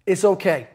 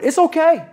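First: Said in the usual way. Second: Sudden high, bright-edged "okay"; high reassurance. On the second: Acted. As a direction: jump way up on "It's okay.". Repeating reassurance to the audience.

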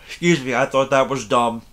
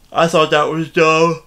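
First: Said in the usual way. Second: Words stretched through a yawn; yawning mid-sentence. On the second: Real, not acted. Reviewing the movie to viewers, caught in a yawn. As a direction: yawn through the line and keep talking.

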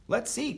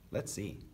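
First: Much higher, eager voice; eager child. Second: Calm echo. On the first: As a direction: pipe up eagerly, ready to try. Eager Carl, echoed by Stillwater. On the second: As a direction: answer the eager one quietly. Stillwater calmly echoes Carl. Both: A narrator's reading.

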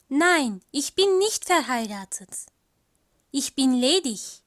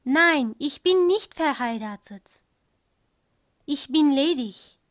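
No difference in how they are said.

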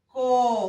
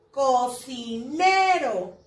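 First: "cocinero" en cuatro sílabas sueltas, con pausas; separado por sílabas. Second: "Cocinero" lento, con NE alargada y resaltada; énfasis en la sílaba tónica. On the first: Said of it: "Se divide en". (silabeo pausado de "cocinero") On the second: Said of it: "¿Cuál es la sílaba tónica?". (palabra lenta, acento marcado en la NE de "Cocinero") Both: Shown as a demonstration.

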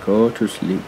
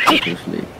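First: Said in the usual way. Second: Whispered lullaby hush; whispering. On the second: Real, not acted. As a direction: whisper it like lulling a pet. Lulling a tamed dodo to sleep.

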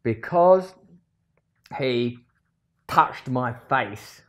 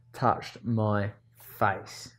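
First: Loud start, then very slow on touched my face; slow, indignant dictation; read out slowly. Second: Drawn out, touched my face said word by word; slow, brooding repeat. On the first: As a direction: drag out touched my face as if writing it. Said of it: "There you write the reason". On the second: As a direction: crawl through the words. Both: Shown as a demonstration.

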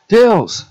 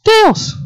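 First: Higher-pitched cry of a name; character call. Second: Very high, louder squeal of a name; squeaky character call. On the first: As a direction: call out high to a friend. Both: Acted. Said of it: "Wait, I'm gonna do it".

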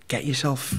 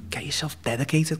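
First: Said in the usual way. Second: Hushed, intense whisper of advice; whispered coaching. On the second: Retold or imitated. Coach urging him in a whisper. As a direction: whisper it like a secret push.

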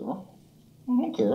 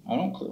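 First: Very high, slow crooned I don't care. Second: Said in the usual way. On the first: Real, not acted. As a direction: stretch it out cooing at the cat. Cooing at the cat.

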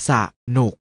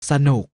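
First: สะหนุก split into สะ and หนุก; short สะ, clear gap, then หนุก; syllable by syllable. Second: Said in the usual way. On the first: Shown as a demonstration. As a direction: sound out สะหนุก in two beats. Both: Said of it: "อ่านว่า".

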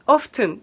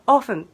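First: オフトゥン with a T after the F; sounded T. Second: オフン with the T left out; silent T. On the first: Teacher showing the form not meant, オフトゥン with sounded T. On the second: Teacher confirming the Midwestern form, オフン with silent T. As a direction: go straight from F to N in オフン. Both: Shown as a demonstration. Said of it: "Tが、Tは言わないって感じ".

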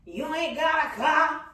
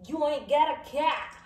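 First: "car" with an open ah vowel; wrong pronunciation attempt. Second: "cat" with a sharp æ vowel, pitched higher; correct Chicago pronunciation. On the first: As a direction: say "car" as car, not cat. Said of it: "No, you say a car". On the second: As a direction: say "cat" clipped, like cat. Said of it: "That's how you say it". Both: Shown as a demonstration.

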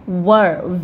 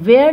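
First: वर said low and short, not where; teacher demo; pronouncing were. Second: Where said as the word not to use; the wrong way to say were; wrong version. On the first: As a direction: say वर with a short vowel. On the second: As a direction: contrast take. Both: Shown as a demonstration. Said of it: "where नहीं बोलेंगे".

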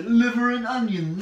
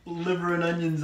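First: Louder, higher put-on British accent; hammed-up British, lifted in pitch. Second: Said in the usual way. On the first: Shown as a demonstration. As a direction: exaggerate a slow British accent. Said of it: "me talking in a British accent". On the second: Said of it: "when people say liver and onions".

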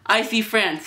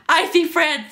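First: Said in the usual way. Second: High-pitched, loud schoolkid taunt; jeering. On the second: Acted. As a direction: chime in with the teasing, voice raised. Kids jeer at boy.

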